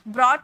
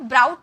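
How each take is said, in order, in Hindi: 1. स्वर 'saw' में 'aw' जैसा सुनाई देता है। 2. स्वर 'cow' में 'ow' जैसा सुनाई देता है। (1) "इसे ब्रॉट बोला जाता है" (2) "तो ब्राउट नहीं बोला जाता"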